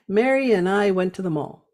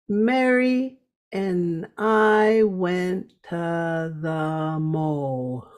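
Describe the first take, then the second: First: The sentence is spoken quickly and smoothly. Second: The sentence is spoken slowly and carefully. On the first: "But saying it faster" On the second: "I slow it down so you can hear it and practice"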